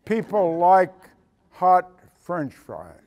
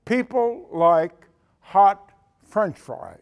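First: Slow, deliberate "People like hot French fries"; eleven-year-old stating a simple truth, slowly; slow boy's answer. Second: Slow, weighty "People like hot French fries"; slow emphatic repeat. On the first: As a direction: spell it out like it's obvious. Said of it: "cocked his head and said". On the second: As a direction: drive the punchline home slowly. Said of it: "That's what he said". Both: Retold or imitated.

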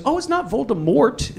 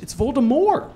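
First: Voldemort with a sounded T at the end; hard final T. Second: Voldemort ending like "more", no T; silent final T. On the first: Author correcting readers, Voldemort said with a hard T. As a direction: finish "Voldemort" on a crisp T. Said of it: "Is it Voldemort or is it Voldemort?". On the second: Author correcting readers, Voldemort said with a silent T. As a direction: leave the T off "Voldemort". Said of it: "With a hard T?". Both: Retold or imitated.

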